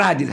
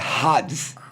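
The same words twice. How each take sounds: First: The word starts without a breathy h sound. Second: The word starts with a breathy h sound. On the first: The speaker calls it wrong. "não é Hades" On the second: The speaker calls it right. "alfa, aspiração áspera"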